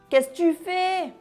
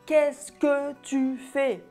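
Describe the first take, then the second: First: The syllables are reduced and run together casually. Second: Every syllable is pronounced fully and carefully. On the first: This is how people say it in conversation. The speaker calls it right. "On dit" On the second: This is not how people say it in conversation. The speaker calls it wrong. "Quand on parle, on ne dit pas"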